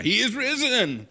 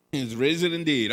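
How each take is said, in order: First: Much higher, louder, slow call of he is risen; loud proclamation. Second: Said in the usual way. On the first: Shown as a demonstration. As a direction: call it out to the congregation. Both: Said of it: "Oh, come on now".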